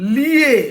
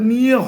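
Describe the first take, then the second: First: The word begins with an L sound. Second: The word begins with an N sound. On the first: The speaker calls it wrong. "তার উচ্চারণ ঠিক নেই" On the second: The speaker calls it right. "ওটা নিয়ে হবে"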